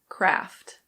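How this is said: It is said in an American English accent. "In American English, it's Kraft"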